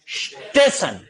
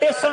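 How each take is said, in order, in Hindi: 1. शब्द सीधे स ध्वनि से शुरू होता है। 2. शब्द सीधे त ध्वनि से शुरू होता है। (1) "ये वास्तव में शब्द क्या है" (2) "वो ई और स नहीं बोलेगा"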